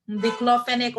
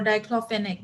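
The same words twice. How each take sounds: First: Diclofenac opening on a short "dik"; Diclofenac, first vowel as in "sit"; short-i first syllable. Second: Diclofenac opening on "dye"; diclofenac, first vowel as in "my"; long-i first syllable. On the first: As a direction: pronounce Diclofenac as "dik-LO-fe-nek". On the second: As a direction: pronounce diclofenac as "dye-KLO-fe-nek". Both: Shown as a demonstration. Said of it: "you can pronounce it anyhow you like".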